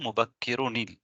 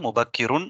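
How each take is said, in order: First: The n links forward with an added i vowel. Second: The word ends with a plain n sound. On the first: The speaker calls it right. "அந்த நூனுக்கு நாங்க கஸ்ரா செய்றோம்" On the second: The speaker calls it wrong. "முபக்கிருன் இல்ல"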